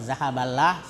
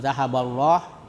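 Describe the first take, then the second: First: The final syllable sounds light, like lah. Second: The final syllable sounds heavy, like loh. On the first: The speaker calls it wrong. "kalau zahaballah salah" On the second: The speaker calls it right. "itulah yang betul"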